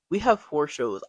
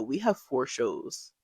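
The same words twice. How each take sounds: First: Repeated louder, pressing the point. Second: Said in the usual way. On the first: Retold or imitated. Retelling her panicked thought about four shows, louder repeat. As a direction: say it again, louder, stressing it to yourself. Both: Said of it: "All I could think to myself".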